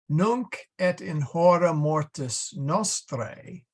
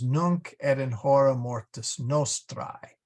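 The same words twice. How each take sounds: First: It uses the ecclesiastical Latin pronunciation. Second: It uses the classical Latin pronunciation.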